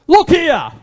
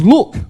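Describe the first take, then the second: First: Angry son. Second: Angry look. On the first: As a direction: bark "Look here" at the father in resentment. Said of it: "In his anger coming out". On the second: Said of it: "Can you imagine the tone?". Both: Retold or imitated.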